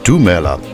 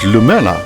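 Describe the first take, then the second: First: The word begins with a d sound. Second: The word begins with an l sound. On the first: The speaker calls it right. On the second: The speaker calls it wrong.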